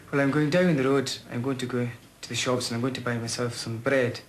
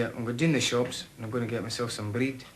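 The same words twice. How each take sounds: First: A light, lilting West Highland accent. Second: Glasgow accent. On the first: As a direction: speak it in his old Highland accent from Oban. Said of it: "My old native tongue, I'd say, like, for example". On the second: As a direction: say it in his adopted Glasgow accent. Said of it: "if I was talking in my Argyll dialect, I'd say". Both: Shown as a demonstration.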